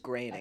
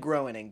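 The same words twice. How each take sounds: First: The name is said differently from its spelling. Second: The name is said as its spelling suggests. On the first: The speaker calls it right. "but it is Groening" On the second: The speaker calls it wrong. "It looks like Groening"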